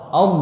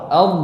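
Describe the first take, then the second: No difference in how they are said.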